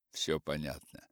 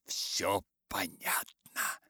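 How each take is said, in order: First: Said in the usual way. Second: Slow devilish hiss; satanic voice. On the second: Acted. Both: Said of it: "стараясь кричать тоже сатанинским голосом".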